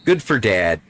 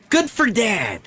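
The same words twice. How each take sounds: First: Said in the usual way. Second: Good for Dad! jumps much higher, bright; excited repeat. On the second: Real, not acted. Player cheering for the game's dad, pitched way up.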